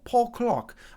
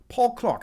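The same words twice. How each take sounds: First: It is said in his normal American accent. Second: It is said in a put-on British accent.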